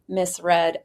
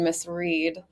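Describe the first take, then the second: First: The second word has a short e vowel. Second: The second word has a long ee vowel. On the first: The speaker calls it right. "it is pronounced Miss Red" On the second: The speaker calls it wrong. "Not to be confused with the pronunciation Miss Reed"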